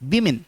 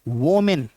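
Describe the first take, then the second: First: The first vowel sounds like 'ih'. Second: The first vowel sounds like 'oh'. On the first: The speaker calls it right. "सही प्रोनाउंसिएशन क्या होगा?" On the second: The speaker calls it wrong. "ये गलत प्रोनाउंसिएशन है"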